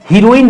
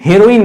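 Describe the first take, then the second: First: The first vowel is a long 'ee' sound. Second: The first vowel is a short 'e' sound. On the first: The speaker calls it wrong. "हीरोइन नहीं" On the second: The speaker calls it right. "हेरोइन बोलते हैं"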